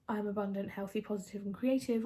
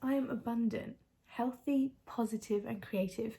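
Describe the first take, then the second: First: It is read flatly, without emotion. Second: It is read with emotion and excitement. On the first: The affirmation is done as a chore. The speaker calls it wrong. "reading this is just as" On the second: The affirmation is truly felt. The speaker calls it right. "read these with some emotion, some excitement"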